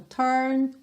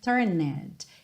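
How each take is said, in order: First: The e is silent, making one syllable. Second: The ending -ed is sounded as an extra syllable. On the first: The speaker calls it right. "Essa letra E... é totalmente silenciosa" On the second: The speaker calls it wrong. "você não vai dizer turned"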